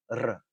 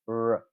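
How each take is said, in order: First: The r is a rapid tongue-tip trill. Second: The r is smooth, with no friction or trill. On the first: "the Spanish R, which is an alveolar trill" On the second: "it sounds like this, r, r, and uh, that's called an alveolar approximant"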